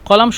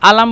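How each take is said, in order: First: The word begins with a deep q sound. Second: The word begins with a glottal stop. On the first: This is the standard form. "কলাম শুদ্ধ ভাষা" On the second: This is how Egyptians say it. "আলাম বলে মিশরীয়রা"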